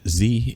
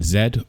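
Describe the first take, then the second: First: The letter is said the American way, 'zee'. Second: The letter is said the British way, 'zed'.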